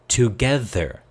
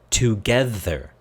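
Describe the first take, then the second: Both takes have the same delivery.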